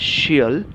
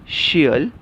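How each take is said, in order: Both takes have the same delivery.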